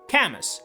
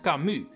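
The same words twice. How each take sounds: First: The name is said with an English-style pronunciation. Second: The name is said with a French pronunciation. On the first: The speaker calls it wrong. "trying too hard to sound English" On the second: The speaker calls it right. "In French, it's pronounced"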